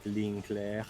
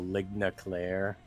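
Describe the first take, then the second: First: The term is pronounced in a French way. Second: The term is pronounced in an anglicized way. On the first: The speaker calls it right. "It's more like ligne claire" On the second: The speaker calls it wrong. "not very good French pronunciation there"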